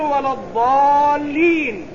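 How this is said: The letter is said as a heavy emphatic ḍ. The speaker calls it right. "لكن العربي الصميم القح الذي رضع من لبانهم يقول"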